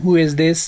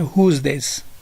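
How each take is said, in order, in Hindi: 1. 'is' शब्द पूरा बोला जाता है। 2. 'is' शब्द 'who' के साथ जुड़कर संकुचित बोला जाता है। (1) "आप लोगों ने इस तरह नहीं कहना" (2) "आप लोगों ने कहना है"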